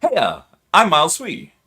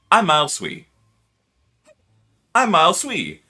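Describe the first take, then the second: First: Hyped channel intro. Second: Slightly louder practice takes; intro voice retakes. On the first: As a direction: sell your name like a YouTube intro. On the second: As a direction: try the intro line once more. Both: Shown as a demonstration. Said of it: "take a couple deep breaths and go".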